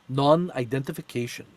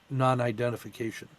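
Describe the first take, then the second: First: It is said in an imitated foreign accent. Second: It is said in the speaker's own accent.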